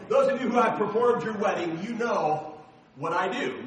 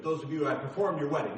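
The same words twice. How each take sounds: First: "performed" said clearly and firmly on the restart; confident restart of the phrase after a slip; corrected retake. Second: Fumbled first try. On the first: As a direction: start over louder and get it right this time. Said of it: "there you go". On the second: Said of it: "I say it wrong every time". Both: Shown as a demonstration.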